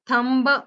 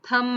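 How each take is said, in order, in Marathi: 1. शेवटचा 'b' उच्चारला जातो. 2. शेवटचा 'b' शांत असतो. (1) "थंब म्हणायचं नाही" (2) "थंब म्हणायचंय"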